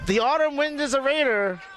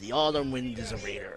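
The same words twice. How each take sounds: First: It is read in an ordinary speaking voice. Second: It is read in a deep, dramatic narrator voice.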